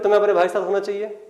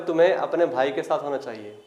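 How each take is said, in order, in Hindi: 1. यह जोर देकर, काफी दृढ़ता से कहा गया है। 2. यह शांत, सामान्य लहजे में कहा गया है। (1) "बस मैं अकड़ रहा हूं" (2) "नॉर्मल कह रहा हूं"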